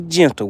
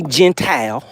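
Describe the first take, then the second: First: "gentle" said properly as JEN-tl; self-correction to "gentle"; corrected gentle. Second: "gentile" said like JEN-tile, long i in the last syllable; mispronounced gentle. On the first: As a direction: fix it to "gentle", short second syllable. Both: Real, not acted. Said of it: "Let's be gentle with it".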